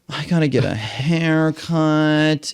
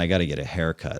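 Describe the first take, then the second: First: It is said in a whiny, complaining tone. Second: It is said in a casual, matter-of-fact tone. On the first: The task feels like a burdensome excuse. "whining about it" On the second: The task is a minor, ordinary chore. "He didn't say like, oh man"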